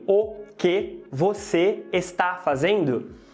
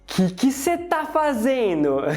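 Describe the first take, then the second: First: Every word is said fully and carefully. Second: The words are shortened and run together quickly. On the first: The speaker calls it wrong. "você acha que ele vai falar assim? ... acho que não" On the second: The speaker calls it right. "ela vai mandar logo um"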